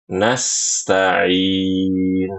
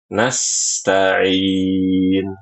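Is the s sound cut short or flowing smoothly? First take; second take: flowing; flowing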